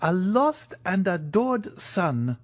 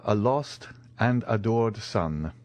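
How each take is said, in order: First: Slow, high-pitched heartfelt echo; emotional old major. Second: Said in the usual way. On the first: Acted. Major echoes news of his lost son, emotional. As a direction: draw it out high with longing.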